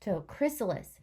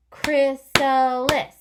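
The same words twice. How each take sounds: First: Said in the usual way. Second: Chrysalis said slow, high and loud; stretched out. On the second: Shown as a demonstration. Teacher modelling chrysalis for the class, slow and loud. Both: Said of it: "stretch it out".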